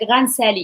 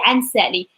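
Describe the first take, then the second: First: The first word is partly merged and shortened. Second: The first word is cut to one short syllable. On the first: "some people combine it" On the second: "In the north they say"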